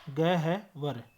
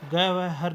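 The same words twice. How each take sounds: First: ग है वर with ह before व; correct pronunciation. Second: ग वह हर with व before ह; wrong pronunciation. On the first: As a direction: break ग है वर as 'gah-var'. (ग है वर, सही वर्णक्रम में) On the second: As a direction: sound out ग वह हर as 'ga-va-har'. (ग वह हर, गलत वर्णक्रम) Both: Shown as a demonstration. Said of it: "ग वह हर नहीं".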